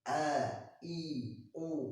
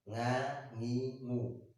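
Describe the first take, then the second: First: Each syllable starts with a glottal stop catch. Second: Each syllable starts with a nasal ng sound. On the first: "dia larinya ke hamzah" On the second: "mereka mengucapkan a itu seperti eng ... ini salah"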